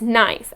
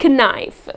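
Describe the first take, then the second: First: The word begins with a silent K. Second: The word begins with a sounded K. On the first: The speaker calls it right. "the letter K here is silent, and the correct pronunciation of this word is knife" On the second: The speaker calls it wrong. "and not knife"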